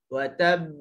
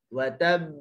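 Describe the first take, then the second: Both takes have the same delivery.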